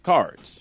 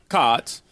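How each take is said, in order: First: The r is pronounced before the d. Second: The r is dropped, like a Boston accent. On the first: This is how the family usually says it. "we say cards like cards" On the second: This is how the son says it, like someone from Boston. "He says like cods"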